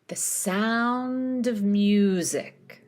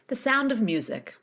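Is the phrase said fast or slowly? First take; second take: slowly; fast. First: The phrase is said slowly. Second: The phrase is said quickly. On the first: "Let's put it all together once slowly" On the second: "Now speed it up"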